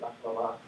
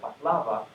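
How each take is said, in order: First: The stress is on the final syllable. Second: The stress is on a non-final syllable. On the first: The speaker calls it right. "finely stressed syllable like baklava ... it should be correct" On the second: The speaker calls it wrong. "that should be wrong"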